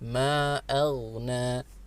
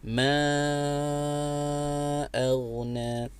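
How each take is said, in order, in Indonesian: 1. Vokal pertama hanya dibaca sebentar. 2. Vokal pertama dibaca panjang. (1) "tidak cukup" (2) "harus dibaca empat harokat atau lebih panjang sedikit, lima harokat"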